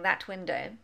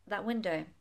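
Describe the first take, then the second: First: The t at the end of 'that' is fully pronounced. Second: The t is softened into a short pause. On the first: The speaker calls it wrong. "it's quite hard work and it doesn't sound amazing" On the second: The speaker calls it right. "I just soften that"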